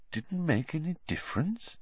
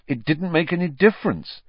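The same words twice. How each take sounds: First: Softer questioning echo; quiet. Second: Bitter, resentful complaint. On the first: Dumbledore echoing Harry's complaint, softly questioning. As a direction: turn his words back gently and quietly. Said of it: "said Dumbledore quietly". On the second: Harry to Dumbledore after Pettigrew escapes, bitterly. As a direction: spit it out in bitter frustration. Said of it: "said Harry bitterly". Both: A narrator's reading.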